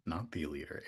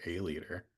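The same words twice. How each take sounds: First: "the" stressed as the wrong word; "not THE leader", weight on "the". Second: "a" stressed as the right word; "A leader", weight on "a". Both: Shown as a demonstration.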